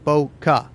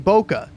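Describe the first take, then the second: First: It is said with a Spanish pronunciation. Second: It is said with an English pronunciation. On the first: "how native speakers would pronounce it" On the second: "how you would probably read it if you're an English speaking person"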